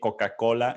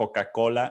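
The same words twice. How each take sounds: First: It is said with a Spanish accent. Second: It is said with a Spanish accent.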